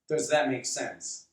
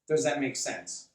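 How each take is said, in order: Both takes have the same delivery.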